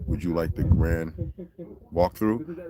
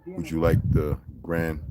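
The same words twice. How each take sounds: First: Lower, prim guide voice, drawn out; mimicking a polite guide. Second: Slow, lower, prim guide voice; a lightly put-on posh tour guide offer; mimicking a polite guide. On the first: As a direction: repeat the guide's offer in a lightly put-on formal tone. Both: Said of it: "this is what he said".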